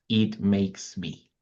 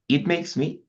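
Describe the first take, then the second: First: Slow model phrase. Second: Said in the usual way. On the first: Shown as a demonstration. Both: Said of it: "we have an extra expression".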